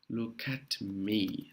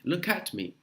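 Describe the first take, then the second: First: "look at me" very slow, soft, run together as loo-kat me; slow linking demo. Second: Said in the usual way. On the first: Shown as a demonstration. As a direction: ease slowly through "look at me", linking K to A. ("look at me" lento e ligado, K junto com A) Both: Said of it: "o K vai juntar com A".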